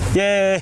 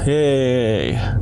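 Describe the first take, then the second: First: It is said brightly, with high energy. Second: It is said flatly, with low energy. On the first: "that sounds a little more excited" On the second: "I know I don't sound too excited"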